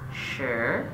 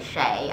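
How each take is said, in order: First: The name is said the Chinese way, like 'sure'. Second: The name is said the American way, like 'Shay'. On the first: "the Chinese pronunciation" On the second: "the Americanized version is Shay"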